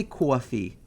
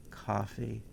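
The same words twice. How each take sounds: First: "coffee" with a rounded, drawn-out "aw" vowel; New York coffee. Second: "coffee" with an open "ah" first vowel; own everyday coffee. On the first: New Yorker disowning the accent, "coffee" said as "caw-fee". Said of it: "I don't say coffee". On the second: New Yorker showing the usual pronunciation, "coffee" said as "cah-fee". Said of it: "If I was talking fast, I say". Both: Shown as a demonstration.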